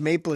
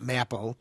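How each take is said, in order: First: Said in the usual way. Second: "maple" with short a, as mapple; deliberate mispronunciation. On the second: Shown as a demonstration. Host joking about how not to pronounce it, short-a mispronunciation. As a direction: say "maple" to rhyme with apple. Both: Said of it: "No trouble pronouncing it".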